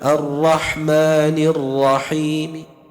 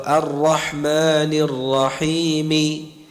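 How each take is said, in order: First: The final vowel is voiced only faintly and partly. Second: The final vowel is voiced fully and clearly. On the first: "lirih gitu, ya, tidak sempurna" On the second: "kan jelas, ya, lantang, sempurna harakatnya"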